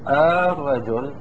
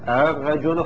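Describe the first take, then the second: First: The opening vowel is drawn out as a long vowel. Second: The opening hamza is softened toward a short vowel. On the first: "ويبدل مدا في الاستفهام" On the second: "بين الهمزة وبين حركة ما قبلها"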